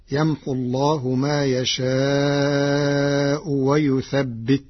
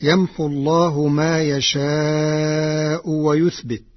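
First: ويثبت with doubled ب, wa-yuthabbit; Warsh reading with shadda. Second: ويثبت as wa-yuthbit, light ب; first reading, slow recitation. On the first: Teacher demonstrates Warsh's shadda reading, slow recitation with ويثبت as yuthabbit. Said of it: "بالتشديد". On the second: Teacher recites the verse slowly before giving Warsh's variant, ويثبت as yuthbit. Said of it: "قرأ ورش كلمة "ويثبت". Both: Shown as a demonstration.

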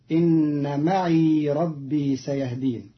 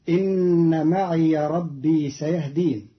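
The two takes are said the same way.

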